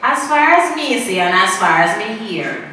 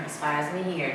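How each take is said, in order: First: Said in the usual way. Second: Much softer, hushed, as if sharing a secret; soft conspiratorial murmur; hushed aside. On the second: Shown as a demonstration. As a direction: drop to a hush like gossip you shouldn't repeat. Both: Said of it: "don't quote me".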